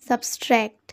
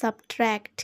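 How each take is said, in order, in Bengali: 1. t-এর আগে একটি অতিরিক্ত s ধ্বনি আসে। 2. t-এর আগে কোনো অতিরিক্ত s ধ্বনি আসে না। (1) "এটা কিন্তু একটা ভুল উচ্চারণ" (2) "সঠিক উচ্চারণটাই"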